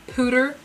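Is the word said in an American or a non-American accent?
American. It is said in an American accent.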